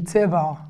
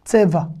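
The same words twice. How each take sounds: First: "Tseva" with the final ayin sounded in the throat; Sephardic pronunciation. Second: "Tseva" with the ayin left silent; modern Israeli pronunciation. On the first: Teacher showing how a Sephardic synagogue says "Tseva", ayin sounded. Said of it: "si j'étais dans une synagogue séfarade". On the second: Teacher showing modern Israeli "Tseva", ayin silent. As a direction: say "Tseva" ending on a simple A, no throat sound. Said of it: "on ne le prononce pas". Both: Shown as a demonstration.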